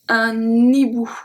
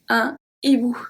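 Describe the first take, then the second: First: The n sound runs straight into hibou. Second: The two words are said apart without linking. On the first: The speaker calls it wrong. "We can't say un hibou" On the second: The speaker calls it right. "Two separate words"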